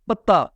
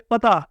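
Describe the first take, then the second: First: پتا as pat-ta, the leaf word; doubled t. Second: پتا as pa-ta, the address word; light single t in پتا. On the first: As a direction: stop on the t in پتا. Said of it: "درختوں کے پتے ہوتے ہیں". (پتا میں تے پر شد) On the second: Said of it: "گھر والا پتا". (پتا بغیر شد کے) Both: Shown as a demonstration.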